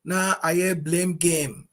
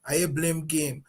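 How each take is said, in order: First: "na ayɛ blame game" drawn out very slowly, weight on "na"; slow emphatic phrase. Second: Said in the usual way. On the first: Real, not acted. Host hammering home the blame game, slow and weighty.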